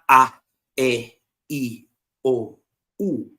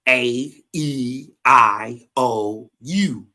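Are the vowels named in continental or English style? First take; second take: continental; English. First: Vowels sound like ah, eh, ee, oh, oo. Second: Vowels sound like ay, ee, eye, oh, you. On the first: This is how other languages name the vowels. "Not A, E, I, O, U. Everybody else use that" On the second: This is how English speakers name the vowels. "Ours say A, E, I, O, U"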